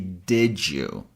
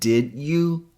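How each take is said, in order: First: The d before you sounds like a j. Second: The d before you is a plain d sound. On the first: The speaker calls it right. "D pretends to be the letter J" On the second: The speaker calls it wrong. "instead of saying did you"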